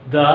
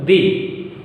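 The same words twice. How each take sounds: First: "the" as in "thuh". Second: "the" rhyming with "see"; "the" as thee. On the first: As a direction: say "the" with an open, neutral vowel. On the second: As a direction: say "the" with a long ee. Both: Shown as a demonstration. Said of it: "We often pronounce it".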